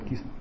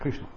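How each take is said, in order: First: The name is said as 'kis-na' without 'r'. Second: The name is said with 'kr' and 'sh'. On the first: This is how Bengalis say it. "Кисна это говорят бенгальцы" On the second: This is how it is said in the north. "ну на севере говорят Кришна"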